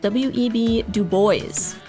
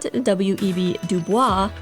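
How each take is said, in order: First: Bois ends in an s, like 'boyce'. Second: Bois ends in a vowel, like 'bwah'. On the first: The speaker calls it right. "it is" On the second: The speaker calls it wrong. "I mispronounced a historical figure's name. It is not"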